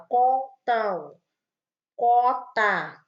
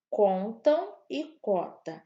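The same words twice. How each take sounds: First: Words spoken with the nose held closed, louder; blocked-nose demo for the class; nose pinched shut. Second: Said in the usual way. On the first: Shown as a demonstration. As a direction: pinch the nose and say contam, cota. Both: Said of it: "a gente fecha o nariz e fala".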